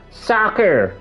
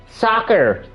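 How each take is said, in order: Both takes have the same delivery.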